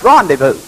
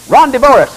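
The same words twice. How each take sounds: First: It is said the French way, silent letters dropped. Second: Every letter is sounded as in English spelling. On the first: The speaker calls it right. "no, it's rendezvous" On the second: The speaker calls it wrong. "You'll say"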